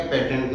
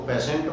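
First: पेटेंट said with a hard t, petent; wrong t sound. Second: पेशेंट said with sh, peshent; sh sound. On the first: Teacher showing students how not to say patient. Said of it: "पेटेंट नहीं बोलेंगे". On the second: Teacher showing students the correct patient. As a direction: say पेशेंट with a clear sh, the right way. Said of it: "तो इसको पेशेंट बोलेंगे". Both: Shown as a demonstration.

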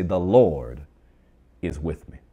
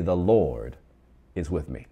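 First: Louder bold declaration. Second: Bold, confident proclamation; bold declaration. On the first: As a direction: LORD almost shouted, then the rest drops back. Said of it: "Come on, bonus time". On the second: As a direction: LORD punched out loud. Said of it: "Say it with some boldness". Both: Shown as a demonstration.

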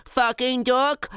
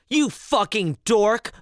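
First: Put-on high, slow babyish babble; high-pitched dopey baby talk; baby idiot voice. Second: Slow, higher mock-scolding mom; a lightly voiced mom's insult, drawn out; slow, teasing put-down from mom. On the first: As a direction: parrot it like a dim baby. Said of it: "like a baby idiot". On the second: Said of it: "the mom said".

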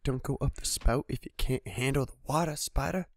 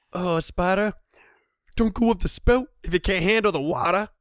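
First: Said in the usual way. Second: Loud, high gloating taunt at the spider; louder, higher taunt over a kill; mock taunt. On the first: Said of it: "every time I kill a spider". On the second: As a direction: rub it in with a sing-song jeer.

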